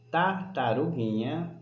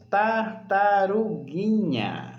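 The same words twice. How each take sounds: First: Said in the usual way. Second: "tartaruguinha" slow and higher, falling at the end; stretched word. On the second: Shown as a demonstration. Teacher introducing the last word, stretched for listening. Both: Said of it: "Usar bastante a audição".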